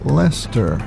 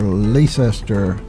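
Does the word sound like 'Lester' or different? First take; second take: like Lester; different. First: The word sounds just like Lester. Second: The word does not sound like Lester. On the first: The speaker calls it right. "The correct pronunciation ... is Lester. Like it was spelled L E S T E R" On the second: The speaker calls it wrong. "many newcomers uh, tend to pronounce it Leicester or Leicester. Both are wrong"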